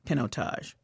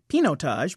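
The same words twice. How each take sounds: First: The first part does not sound like 'Pinot'. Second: The first part sounds like 'Pinot'. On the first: The speaker calls it right. "But in fact, it's Pinotage" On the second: The speaker calls it wrong. "I've been calling it Pinotage because it looks like Pinot on the front end of it"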